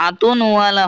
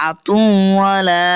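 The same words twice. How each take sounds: First: আতুনওয়ালা with an added n; wrong reading. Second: আতুওয়ালা slower, no n after তু; correct reading. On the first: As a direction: show the mistake আতুনওয়ালা. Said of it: "আতুনওয়ালা হবে না". (ভুল উচ্চারণ আতুনওয়ালা) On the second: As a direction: model আতুওয়ালা cleanly. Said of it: "এটা হবে আতুওয়ালা". (সঠিক উচ্চারণ আতুওয়ালা) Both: Shown as a demonstration.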